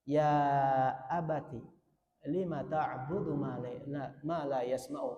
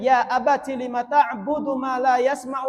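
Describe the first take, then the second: First: It is recited quietly in a gentle tone. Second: It is recited loudly with lively energy. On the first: A child tenderly addresses a father. "dibacakan dengan nada lembut, kita lirihkan" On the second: The reciter is eager while explaining. "saya bacanya pertama karena semangat menjelaskan"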